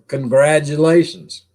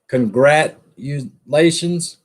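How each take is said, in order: First: The middle consonant is a D sound. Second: The middle consonant is a T sound. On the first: "We say it with a D instead of a T" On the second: "I guess I should pronounce that correctly"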